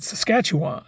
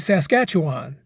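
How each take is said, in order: First: It is said the way Canadians say it. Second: It is said the way outsiders usually say it. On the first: The speaker calls it right. "it's called Saskatchewan. Your country, your rules" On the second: The speaker calls it wrong. "I used to say Saskatchewan. It's not"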